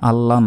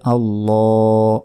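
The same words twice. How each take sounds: First: The vowel after the double L is short. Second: The vowel after the double L is drawn out. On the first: The speaker calls it wrong. "এখানে আল্লাহ নয়" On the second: The speaker calls it right. "বলতে হবে আল্লাহ, এক আলিফ টান দিতে হবে"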